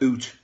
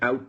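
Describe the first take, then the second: First: It is said like a stereotyped Canadian accent. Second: It is said in his own New England way.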